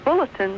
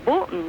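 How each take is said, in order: First: The T in the middle is clearly pronounced. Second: The T in the middle is left out. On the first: The speaker calls it right. "Instead of saying a bulletin" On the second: The speaker calls it wrong. "they just say bulletin, and there's no T or anything"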